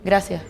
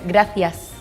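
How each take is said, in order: First: It is said in a Canary Islands accent, dropping S. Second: It is said in a mainland Spanish accent, with S.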